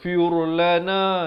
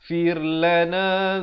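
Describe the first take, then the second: First: The r sound is thick and heavy. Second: The r sound is thin and light. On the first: The speaker calls it wrong. "Jangan baca firlana, itu salah" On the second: The speaker calls it right. "Yang betulnya firlana"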